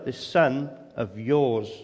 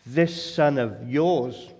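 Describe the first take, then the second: First: Repeated, slow "this son of yours", "son" falling heavily; stress on son. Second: Slow, cold "This son of yours" with weight on "son"; stress on son. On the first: Preacher repeating the older son's distancing phrase, slow and heavy. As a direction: hammer "son" again, coldly. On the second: Preacher quoting the older son's cold, distancing words, slowly. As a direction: lean on "son" to push the brother away. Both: Retold or imitated. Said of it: "not my brother".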